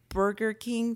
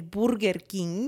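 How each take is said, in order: First: It is pronounced the normal English way. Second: It is pronounced as spelled, Spanish style. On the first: "If you see Burger King" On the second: "They speak English as if it's written"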